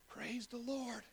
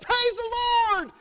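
First: It is said quietly, held back. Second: It is said loudly, with full energy.

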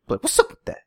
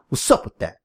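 First: The voice is raised high, like a shout. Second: The voice stays low and sounds hard. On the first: The speaker calls it wrong. "Same thing" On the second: The speaker calls it right. "Get all hard and shit"

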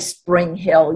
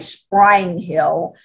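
First: The name is said the way outsiders say it. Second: The name is said the way locals say it. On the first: The speaker calls it wrong. "you don't say Spring Hill" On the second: The speaker calls it right. "if you're from Louisiana, you say Spring Hill"

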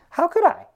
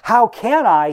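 First: The question sounds curious and open. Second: The question sounds angry and indignant. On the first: He genuinely wants someone to explain it. "you could read this in the tone of like curiosity" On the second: He resents that nobody will explain it to him. "he says indignantly"

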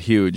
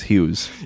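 First: The name ends with a soft 'j' sound. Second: The name ends with a buzzing 'z' sound. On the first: The name sounds like the word for very big. "I've started pronouncing it Huge" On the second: This is the name's real pronunciation. "but it's Hughes"

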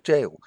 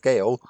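First: The word sounds like jail. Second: The word does not sound like jail. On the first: The speaker calls it right. "this is actually a jail" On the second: The speaker calls it wrong. "I've always pronounced it as Gael"

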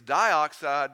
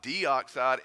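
First: The first syllable sounds like 'die'. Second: The first syllable sounds like 'dee'. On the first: The speaker calls it right. "first, it's dioxide" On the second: The speaker calls it wrong. "not deoxide"

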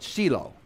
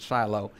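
First: It is said with a Hebrew pronunciation. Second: It is said with an English pronunciation. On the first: This is how people in Israel say the name. "If you go to Israel, they'll call it Shiloh" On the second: This is how English speakers say the name. "You and I would pronounce it Shiloh"

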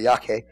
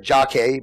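First: The name begins with a Y sound. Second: The name begins with a J sound. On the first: The speaker calls it right. "but it's really Yake" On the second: The speaker calls it wrong. "You say Jake"

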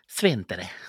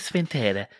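First: The stress falls on the first syllable. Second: The stress falls on the second syllable. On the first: The speaker calls it right. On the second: The speaker calls it wrong.

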